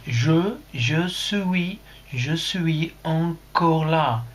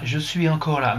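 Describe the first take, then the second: First: Put-on very drawn-out French in a British accent. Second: Said in the usual way. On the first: Streamer showing how Jean-Daniel's message reads, British accent. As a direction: stretch each word like an English learner. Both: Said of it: "son bel accent, euh, britannique".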